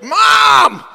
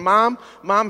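First: High, loud yell held long; fevered shout. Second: Said in the usual way. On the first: Retold or imitated. Calling to a mother-in-law who can't hear, fevered shout. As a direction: holler it at fever pitch. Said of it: "like, a fevered pitch". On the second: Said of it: "Finally, I got to a, like, a fevered pitch".

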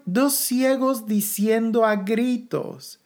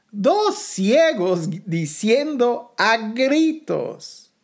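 First: Said in the usual way. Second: "dos ciegos diciendo a gritos" slowed right down, DOS punched; emphatic repetition. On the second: Real, not acted. Preacher repeats the verse to the congregation, slow and emphatic. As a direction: stretch "dos" and "gritos" with weight.

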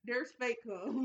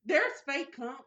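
First: Slower, drawn-out disbelief. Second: Surprised. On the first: Cohost repeating the news about fake cum, slow disbelief. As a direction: let it sink in, stretched. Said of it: "Yeah, it's like". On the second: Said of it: "Yes, it's fake cum shit". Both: Real, not acted.

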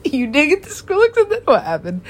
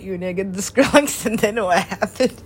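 First: Louder, laughing through the line. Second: Said in the usual way. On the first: Retold or imitated. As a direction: crack up while repeating it.

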